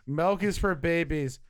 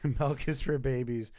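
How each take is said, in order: First: It is said in a put-on impression voice. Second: It is said in an ordinary natural voice. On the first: It imitates the actor who said the line. "unless you did that voice" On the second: It is the speaker speaking as himself. "Just normally"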